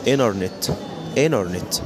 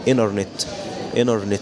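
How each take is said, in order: No difference in how they are said.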